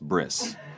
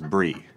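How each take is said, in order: First: The word ends with an s sound. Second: The word ends without an s sound. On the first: The speaker calls it right. "it's pronounced bris" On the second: The speaker calls it wrong. "I decided to pronounce it brie"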